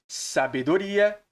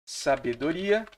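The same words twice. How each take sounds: The two takes are said the same way.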